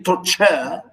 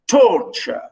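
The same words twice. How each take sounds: First: "torture" with the weight wrongly on "-ture"; stress on second syllable. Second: "torture" high on the first syllable, falling after; stress on first syllable. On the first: Teacher showing what not to say, "torture" stressed on last syllable. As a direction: make "torture" end on a strong, full "CHAH". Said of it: "We don't say torture". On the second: Teacher correcting students' stress, "torture" stressed at the front. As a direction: lean on the start of "torture". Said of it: "we stress the first one". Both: Shown as a demonstration.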